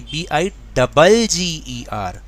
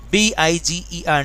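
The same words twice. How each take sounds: First: Slow spelling, डबल stressed and drawn out. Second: Said in the usual way. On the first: Shown as a demonstration. Teacher correcting the spelling for students, slow with डबल stressed. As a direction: spell it letter by letter, leaning hard on डबल. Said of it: "B I जी E R नहीं". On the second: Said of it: "नहीं".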